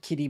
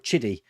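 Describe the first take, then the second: First: The word begins with a k sound. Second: The word begins with a ch sound. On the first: "kiddie is the way I say it" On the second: "People saying it's pronounced Chiddy"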